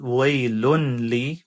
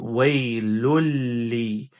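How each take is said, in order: First: The n sound is clearly heard before the l. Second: The n sound merges completely into the l. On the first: The speaker calls it wrong. "we don't say waylunli" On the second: The speaker calls it right. "There's no noon sound at all. It's completely merged"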